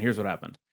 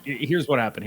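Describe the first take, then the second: First: Softer, as if letting you in on a secret; dropped to a hush. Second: Said in the usual way. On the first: Shown as a demonstration. Co-host about to explain the missed week, hushed. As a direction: repeat it much softer, a conspiratorial aside.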